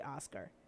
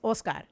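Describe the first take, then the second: First: The name is said with an English pronunciation. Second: The name is said with a Spanish pronunciation. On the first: The speaker calls it wrong. "we never say Oscar" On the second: The speaker calls it right. "It's Oscar"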